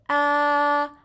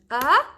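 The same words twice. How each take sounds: First: The pitch stays level and flat. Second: The pitch rises from low to high. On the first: "the first tone, you go straight with your voice" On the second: "so you go up"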